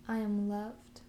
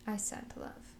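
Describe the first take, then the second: First: Said in the usual way. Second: Whispered affirmation. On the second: Shown as a demonstration. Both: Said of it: "one last time".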